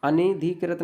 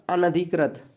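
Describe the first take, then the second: First: E vowel in अनधिकृत, a-ne-dhi-krit; teacher showing the ne mistake; wrong pronunciation. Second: Short a in the न of अनधिकृत; teacher's corrected na vowel; correct pronunciation. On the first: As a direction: turn the न of अनधिकृत into ne. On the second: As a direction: say अनधिकृत as a-na-dhi-krat. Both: Shown as a demonstration. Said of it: "अनधिकृत नहीं होता".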